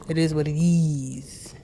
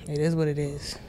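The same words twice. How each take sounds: First: Slow breathy whisper of the phrase. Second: Said in the usual way. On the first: Shown as a demonstration.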